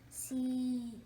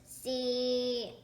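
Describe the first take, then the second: First: It is said in a soft whisper. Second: It is said in a loud, audible whisper. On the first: "he whispered the same the same letter" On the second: "He wasn't that good of a whisperer either, so it sounded more like this"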